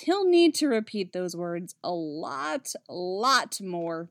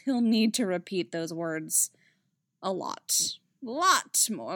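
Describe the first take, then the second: First: The phrase runs on with no break before 'more'. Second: There is a break after 'a lot' before 'more'. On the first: The speaker calls it right. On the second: The speaker calls it wrong.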